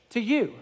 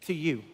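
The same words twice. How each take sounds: First: "To you." repeated with weight on "you"; "To you." said straight to the listener; emphasis on you. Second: Soft reading. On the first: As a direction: lift "you" and point it at the listener. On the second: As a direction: quietly read from the text, much softer. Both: Shown as a demonstration. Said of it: "look at these two words".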